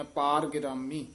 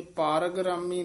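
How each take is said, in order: First: ਪਾਰ set off from ਗਿਰਾਮੀ; dash after ਪਾਰ. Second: The mistaken reading of ਪਾਰ ਗਿਰਾਮੀ; ਪਾਰ ਗਿਰਾਮੀ split wrongly. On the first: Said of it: "ਇੱਥੇ dash ਦੇ ਦੇਣੀ ਹੈ". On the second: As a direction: show how not to say ਪਾਰ ਗਿਰਾਮੀ. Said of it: "ਇਹ ਪਾਰ ਗਿਰਾਮੀ ਨਹੀਂ ਕਹਿਣਾ, ਇਹਨੂੰ ਤੋੜਨਾ ਹੈ". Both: Shown as a demonstration.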